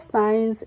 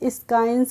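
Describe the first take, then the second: First: The c is silent, with no k sound. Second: The c is sounded as a k. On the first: The speaker calls it right. "हमने इसको पढ़ा है साइंस" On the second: The speaker calls it wrong. "नहीं पढ़ा है"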